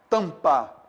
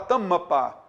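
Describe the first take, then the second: First: The m only nasalizes the vowel before it. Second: The m is followed by an extra vowel. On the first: The speaker calls it right. "Todo mundo fala o quê? Tampa" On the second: The speaker calls it wrong. "Alguém aqui fala tamapa... Ninguém fala isso"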